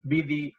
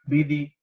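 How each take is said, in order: No difference in how they are said.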